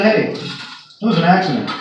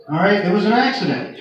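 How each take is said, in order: First: Deadpan relay. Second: Exasperated relay. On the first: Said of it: "I got on the radio and I said". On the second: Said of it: "Really, man?". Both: Retold or imitated.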